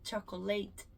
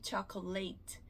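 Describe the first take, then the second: Both takes have the same delivery.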